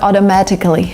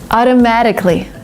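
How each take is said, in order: First: The middle T is a clear T. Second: The middle T sounds like a soft D. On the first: The speaker calls it wrong. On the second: The speaker calls it right.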